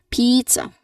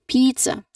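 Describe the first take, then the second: Both takes have the same delivery.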